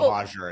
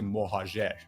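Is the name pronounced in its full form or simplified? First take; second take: simplified; full. First: The name is pronounced in a simplified form. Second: The name is pronounced in its full original form. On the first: This is the easier everyday pronunciation. The speaker calls it wrong. "I say just Mohajir. It's easier" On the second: This is the technically correct pronunciation. The speaker calls it right. "It's technically Mohajir"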